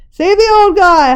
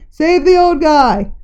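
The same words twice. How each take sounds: First: High, loud howl; a bystander howling to save the old man. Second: Slow, pleading call; voices ringing out. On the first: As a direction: howl it over the crowd. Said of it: "howled someone". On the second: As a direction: plead for the old man. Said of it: "Voices rang out". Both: A narrator's reading.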